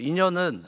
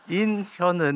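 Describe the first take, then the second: First: The name is said quickly, blurring the h sound. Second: The name is said slowly, with a clear h sound. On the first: The speaker calls it wrong. "제 이름이 빨리 하면 안 됩니다" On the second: The speaker calls it right. "이런 식으로 해야 돼"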